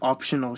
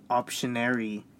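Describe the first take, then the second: First: Optional said plainly with the -al ending; optional, the right way; correct word. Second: Optionary with the -ary ending; optionary, the corrected form; teacher's correction. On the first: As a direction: say optional clearly. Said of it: "if I put, like". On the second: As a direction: write in optionary instead of optional. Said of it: "she'd cross it out". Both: Retold or imitated.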